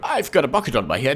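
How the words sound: It is said in a Kinger impression.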